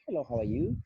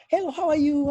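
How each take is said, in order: First: It is said softly and quietly. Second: It is said with extreme excitement.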